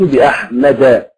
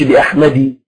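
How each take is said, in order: First: The name ends in an a vowel. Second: The name ends in an i vowel. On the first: The speaker calls it right. "أقول مررت بأحمد" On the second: The speaker calls it wrong. "ما أقولش"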